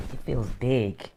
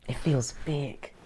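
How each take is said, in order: First: Said in the usual way. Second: Softly whispered repeat of it feels big. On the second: Shown as a demonstration.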